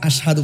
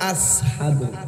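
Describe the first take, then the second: First: The middle consonant is an sh sound. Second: The middle consonant is a plain s sound. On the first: This is the usual way the word is said. "আশহাদু কইতা তো না" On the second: This is how one person who could not say sh said it. "আস কইতা আসহাদু"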